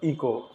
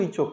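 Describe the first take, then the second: First: The middle consonant is a k sound. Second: The middle consonant is a ch sound. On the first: The speaker calls it right. "तब डांट करके उसको इको" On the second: The speaker calls it wrong. "बहुत सब लड़का शुरुआत में इचो इचो करता था"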